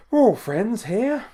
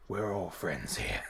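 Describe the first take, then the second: First: High, loud, drawn-out mock singsong; high playful voice. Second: Low, soft, slow mock reassurance; low playful voice. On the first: Host reassuring viewers in the stream chat, playful high voice. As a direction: stretch it out slowly, pitched way up. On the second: Host reassuring viewers in the stream chat, playful low voice. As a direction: drop it way down and draw it out.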